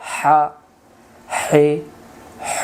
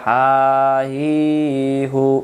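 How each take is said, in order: First: The vowels after 'ha' sound like 'e' and 'o'. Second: The vowels after 'ha' sound like 'i' and 'u'. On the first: The speaker calls it right. "উচ্চারণ তাড়াতাড়ি" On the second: The speaker calls it wrong. "উচ্চারণ হবে না"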